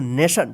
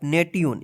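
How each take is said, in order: First: The middle consonant is a 'sh' sound. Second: The middle consonant is a 't' sound. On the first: The speaker calls it right. "स उच्चारण होता है" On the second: The speaker calls it wrong. "इसको नेट्यून पढ़ते होंगे आप"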